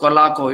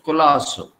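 First: The middle consonant is a hard k sound. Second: The middle consonant is a hissing s sound. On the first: The speaker calls it wrong. "Without those who do not know, they will say Colaco. It is not Colaco" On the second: The speaker calls it right. "it is Culasso"

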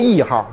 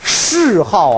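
First: The first syllable is not said as 'shì'. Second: The first syllable is said as 'shì'. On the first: The speaker calls it wrong. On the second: The speaker calls it right.

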